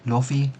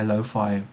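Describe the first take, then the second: First: It is said unlike the pattern of hi-fi. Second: It is said following the pattern of hi-fi. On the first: The speaker calls it wrong. "I always said lofi. I thought that was the way you pronounced it" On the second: The speaker calls it right. "even though I understood kind of hi-fi"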